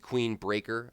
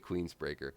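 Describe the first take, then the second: First: It is said with no s after 'Queen'. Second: It is said with an s after 'Queen'. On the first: The speaker calls it right. "I say Queen" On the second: The speaker calls it wrong. "I always say Queensbreaker"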